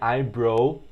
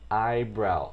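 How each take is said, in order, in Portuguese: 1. A última parte rima com 'go'. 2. A última parte rima com 'cow'.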